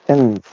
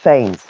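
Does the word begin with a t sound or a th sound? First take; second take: t; th. First: The word begins with a plain t sound. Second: The word begins with a th sound. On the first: The speaker calls it right. "Think of it like that. Thames" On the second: The speaker calls it wrong. "instead of Thames"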